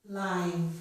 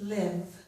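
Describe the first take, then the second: First: The vowel is the same as in life. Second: The vowel differs from the vowel in life. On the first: It is the adjective meaning alive. "As an adjective, it's pronounced live" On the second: It is the verb meaning to reside. "as a verb, this word would be pronounced live"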